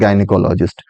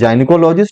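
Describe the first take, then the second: First: The word begins with a hard G sound. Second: The word begins with a J sound. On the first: "दोनों दोनों सही pronunciation है" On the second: "कुछ लोग जाइनिकोलॉजिस्ट जाइनिकोलॉजिस्ट भी पढ़ते हैं"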